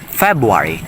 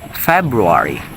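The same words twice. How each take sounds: First: The first R sound is dropped. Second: The first R sound is pronounced.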